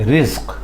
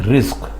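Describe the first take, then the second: The two takes are said the same way.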